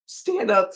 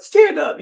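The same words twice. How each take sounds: First: Said in the usual way. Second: Much higher and louder, eager to hug; insistent call. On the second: Retold or imitated. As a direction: urge her up with a joyful cry. Woman urging her to stand, repeated.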